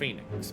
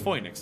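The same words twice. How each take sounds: First: The first vowel sounds like 'ee'. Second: The first vowel sounds like 'oy'. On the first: The speaker calls it wrong. "not Phoenix" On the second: The speaker calls it right. "I would assume it would be pronounced Phoenix, ... Because it's F O I"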